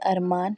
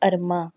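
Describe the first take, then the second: First: The word ends with a full n sound. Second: The word ends with a nasalized vowel.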